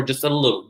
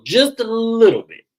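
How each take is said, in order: First: Said in the usual way. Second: "just a little bit" pushed up high and louder; emphatic repeat. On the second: Real, not acted. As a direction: squeal up on "just a little bit", dropping at the end.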